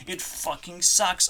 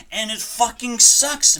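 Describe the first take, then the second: First: Said in the usual way. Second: "sucks" belted higher and louder; frustrated yell. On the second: Real, not acted. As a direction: shout "it fucking sucks" in real frustration. Repeats line, first louder.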